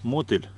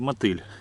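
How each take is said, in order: First: The stress is on the first syllable. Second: The stress is on the last syllable. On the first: "ударение на первый слог" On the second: "на последний"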